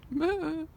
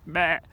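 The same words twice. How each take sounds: First: Higher-pitched farewell "meh"; high sheep call of goodbye; goodbye sheep bleat. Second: Loud, low sheep "meh"; gruff-tempered sheep imitation; sheep bleat, too angry. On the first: Retold or imitated. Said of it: "That means goodbye". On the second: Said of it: "No, that's not angry".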